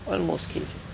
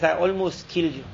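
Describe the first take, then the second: First: Much softer, murmured repeat to himself; quiet echo. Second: Said in the usual way. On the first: Retold or imitated. King, shaken, repeating to his friend, in a hushed echo. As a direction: let it fall away, half to himself.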